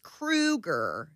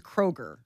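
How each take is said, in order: First: The name is said to rhyme with Krueger. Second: The name is said as spelled, like Kroger. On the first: This is how the name's owner pronounces it. "he says it's Kroeger. And he pronounced it, and he's like, yeah, like Freddy Krueger" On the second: This is how the spelling suggests it should sound. "The way it's spelled is Kroeger"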